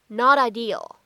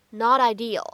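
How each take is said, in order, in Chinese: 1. 这个 t 是闪音，连到 'ideal' 里。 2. 这个 t 是闪音，连到 'ideal' 里。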